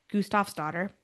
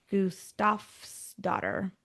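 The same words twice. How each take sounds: First: "Gustafsdottir" said again at normal pace with a hard k at the start, koos-tahfs-dotter, rising at the end; quick retry. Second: "Gustafsdottir" sounded out very slowly, goos-tahfs-dotter; slow careful name. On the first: Checking the Swedish name with a second quicker take: "Gustafsdottir". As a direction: try "Gustafsdottir" once more at speed, with a questioning lift. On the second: Reading the Swedish birth name slowly to get it right: "Gustafsdottir". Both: Shown as a demonstration.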